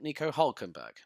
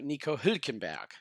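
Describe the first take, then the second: First: The surname's first vowel is a plain u sound. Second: The surname's first vowel is a rounded ü sound. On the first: The speaker calls it wrong. "most people call him" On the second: The speaker calls it right. "That's how it's said"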